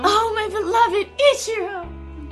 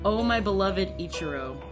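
First: It is said with exaggerated desperation. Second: It is said flatly, without much feeling.

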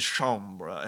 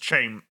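First: The word ends in a 'ra' sound. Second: The word ends in a plain 'er' sound. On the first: The speaker calls it right. "Sorry, I forgot" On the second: The speaker calls it wrong. "No, he says, chambra"

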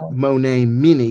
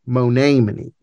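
First: The stress is on the third syllable. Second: The stress is on the second syllable. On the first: The speaker calls it wrong. "how do we know that it's not Monamini? ... if it were Monamini, there would be a long, that I would be long" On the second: The speaker calls it right. "You accent the long E there"

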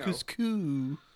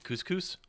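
First: The final S sound is dropped. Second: The final S sound is pronounced. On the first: "I call it couscous" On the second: "What is it supposed to be?"

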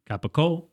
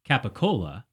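First: Final vowel dropped and the k becomes g. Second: Full word, final vowel kept, with a k sound.

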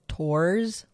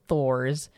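First: The name begins with a plain T sound. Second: The name begins with a TH sound. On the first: "like the Japanese way of saying it" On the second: "like Thor"

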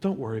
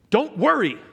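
First: It is said in a gentle, reassuring tone. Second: It is said in a harsh, exasperated tone. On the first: The listener is being comforted and reassured. The speaker calls it right. "It's gentle" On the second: The listener is being scolded for worrying. The speaker calls it wrong. "Ugh. Is that the heart of Jesus?"

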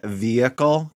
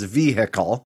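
First: The H sound in the middle is silent. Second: The H sound in the middle is pronounced. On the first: The speaker calls it right. "say the word vehicle correctly" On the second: The speaker calls it wrong. "why not pronounce the H?"

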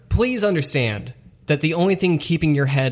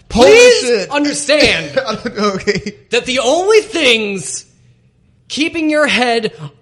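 First: The line is said at a normal volume. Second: The line is said at a louder volume.

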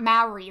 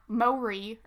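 First: The name does not sound like 'Maury'. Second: The name sounds like 'Maury'. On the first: The speaker calls it wrong. "not Maori, like I always pronounced it" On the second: The speaker calls it right. "it's actually pronounced"

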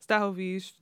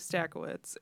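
First: The surname is said with a Polish pronunciation. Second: The surname is said with an Americanized pronunciation. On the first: This is how the name is said in Poland. "true Polish pronunciation" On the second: This is the family's adapted version of the name. "what you've been taught is my last name"

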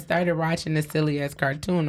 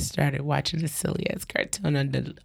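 First: It is read in an ordinary speaking voice. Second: It is read in a put-on sexy voice.

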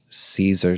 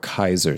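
First: The word begins with an S sound. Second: The word begins with a K sound. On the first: The speaker calls it wrong. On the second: The speaker calls it right.

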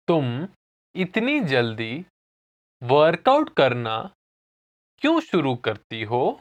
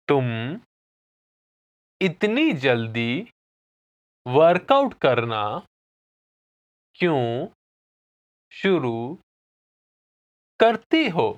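First: It is said at normal speed. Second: It is said slowly.

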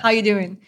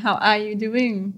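First: The words run together and 'are' is dropped. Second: Every word is said, including 'are'. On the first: "They gel all the words together" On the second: "Rather than"

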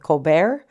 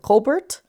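First: The name is pronounced the French way. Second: The name is pronounced the English way. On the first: "She's French, thus why I went with Colbert" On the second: "instead of Colbert"

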